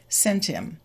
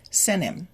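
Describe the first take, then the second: First: SENT HIM said as "sen-tim"; blended SENT HIM. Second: SENT HIM said as "senim"; T deleted. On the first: Teacher links the words for learners, SENT HIM as "sen-tim". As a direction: move the T onto "im", no H in SENT HIM. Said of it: "the T from "sent" moves to the I". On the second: Teacher shows the faster form, SENT HIM as "senim". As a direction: drop both T and H in SENT HIM. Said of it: "the T will be deleted". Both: Shown as a demonstration.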